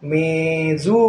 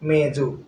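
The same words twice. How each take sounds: First: The first vowel is long. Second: The first vowel is short. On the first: The speaker calls it right. "ಈ ದೀರ್ಘ ಬಂದಿದೆ ಅಂದಮೇಲೆ" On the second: The speaker calls it wrong. "ಈ ದೀರ್ಘ ಇರ್ಲ ಇರದೇ ಇದ್ರೆ ಹೇಗೆ ಓದೋದು?"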